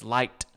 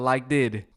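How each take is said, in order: First: The word is said as one syllable. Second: The word is said as two syllables. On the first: The speaker calls it right. "It's liked" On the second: The speaker calls it wrong. "not like did"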